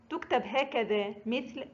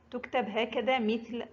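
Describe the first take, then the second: No difference in how they are said.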